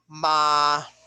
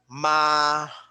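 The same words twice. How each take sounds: The two takes are said the same way.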